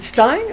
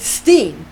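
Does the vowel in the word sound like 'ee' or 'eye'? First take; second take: eye; ee. First: The vowel sounds like 'eye', as in 'stine'. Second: The vowel sounds like 'ee', as in 'steen'. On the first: The speaker calls it right. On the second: The speaker calls it wrong.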